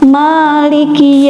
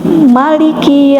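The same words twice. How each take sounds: First: The first vowel is held long. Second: The first vowel is kept short. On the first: It means owner. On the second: It means king.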